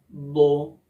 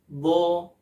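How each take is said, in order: First: The lips are rounded on the syllable. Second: The lips stay unrounded on the syllable. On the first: The speaker calls it wrong. "dengan membulatkan bibir" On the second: The speaker calls it right. "tanpa membulatkan kedua bibir"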